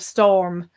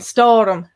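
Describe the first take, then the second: First: It is said with no inserted vowel. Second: An extra vowel is inserted before the m.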